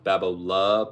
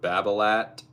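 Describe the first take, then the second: First: The final T sound is left silent. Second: The final T sound is pronounced. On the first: "technically if you want to say it correctly, it's pronounced Babola" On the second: "here in America we just pronounce the T and everything"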